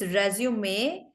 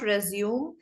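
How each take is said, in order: First: It is said the French way, like résumé. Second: It is said like the English verb resume. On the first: The speaker calls it right. "it's resume because it is um, it's a French word" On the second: The speaker calls it wrong. "it's not resume"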